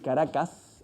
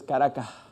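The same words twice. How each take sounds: First: The s sounds are fully pronounced as hisses. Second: The s sound is breathed out like an h. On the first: The speaker calls it right. "En vez de decir Caracas" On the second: The speaker calls it wrong. "Aspiras esa S o sencillamente la suprimes"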